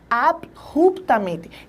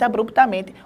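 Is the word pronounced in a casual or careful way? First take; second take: careful; casual. First: The word is said in careful standard pronunciation. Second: The word is said in everyday casual pronunciation. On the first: The speaker calls it right. "A palavra em si é abruptamente. Olha só" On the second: The speaker calls it wrong. "eu falo todos os dias assim"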